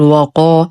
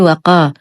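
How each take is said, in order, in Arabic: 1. يُنطق الحرفان ثقيلين وغليظين. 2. يُنطق الحرفان خفيفين ورقيقين. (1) "نخلص الواو من تفخيمها فلا نقول وقا" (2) "لا نقول وقا بترقيق القاف"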